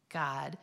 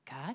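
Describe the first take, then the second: First: It is yelled out loudly and confidently. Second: It is said quietly and hesitantly.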